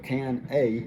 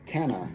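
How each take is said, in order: First: 'Can' and 'a' are said as separate words. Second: 'Can' and 'a' run together into one word. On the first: The speaker calls it wrong. "instead of can a" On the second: The speaker calls it right. "it's canna"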